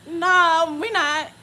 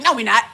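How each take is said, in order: First: Higher, more drawn-out mock denial; oblivious denial. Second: Loud, quick mock dismissal; oblivious denial. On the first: Imitating oblivious friend insisting there's no chase, emphatic. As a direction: insist on it, stretching out the no. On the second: Imitating oblivious friend denying the chase, dismissive. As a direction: brush it off firmly, imitating a clueless friend. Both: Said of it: "She's so oblivious to everything".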